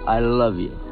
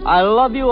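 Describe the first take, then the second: First: It is said plainly, without much passion. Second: It is said with strong, forceful passion.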